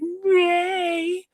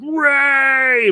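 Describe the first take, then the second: First: The name is shouted in a thinner, weaker voice. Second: The name is shouted in a deep, manly voice. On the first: "By the third one, he was like" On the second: "much more manly and deeply like"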